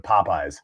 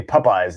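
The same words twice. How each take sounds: First: Popeyes with first syllable like "pop"; standard pronunciation. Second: Popeyes with first syllable like "pup"; short U opening Popeyes, mimicking a friend; imitated odd pronunciation. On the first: Shown as a demonstration. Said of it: "instead of Popeyes". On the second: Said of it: "you say Popeyes instead of".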